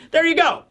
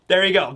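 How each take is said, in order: First: There you go, flung up high; high sign-off. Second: Said in the usual way. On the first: Real, not acted. Wrapping up the retold scene for viewers, high pitched. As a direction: cap the scene with a bright high toss.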